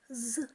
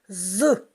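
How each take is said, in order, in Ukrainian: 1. Звук вимовляють тихо. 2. Звук вимовляють голосно. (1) "А тепер вимовляємо цей звук тихо" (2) "А тепер голосно"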